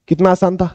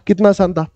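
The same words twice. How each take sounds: The two takes are said the same way.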